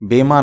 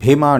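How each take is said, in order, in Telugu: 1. మొదటి హల్లులో ఊపిరి గాలి లేదు. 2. మొదటి హల్లులో బలమైన ఊపిరి గాలి ఉంది. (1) "ఆ బీకి ఒత్తుండదు, భీమా అని అనాలి" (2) "చాలామంది ఇన్సూరెన్స్ గురించి చెప్పేటప్పుడు కూడా భీమా అంటుంటారు"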